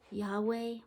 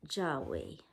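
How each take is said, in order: First: The word begins with a Y sound. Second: The word begins with a J sound. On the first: "Is the J silent?" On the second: "Is that how you pronounce it? J A H W E"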